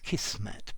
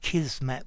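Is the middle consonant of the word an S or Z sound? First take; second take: S; Z. First: The middle consonant is a hissing S sound. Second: The middle consonant is a buzzing Z sound. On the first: The speaker calls it wrong. "some people pronounce it with an S" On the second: The speaker calls it right. "I'm pronouncing it Kismet with a Z"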